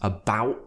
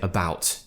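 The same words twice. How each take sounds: First: The final T is a tight glottal stop. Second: The final T is clearly and fully pronounced. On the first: "drop the T, but make sure you're tightening that glottis part of your throat" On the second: "do pronounce those T's"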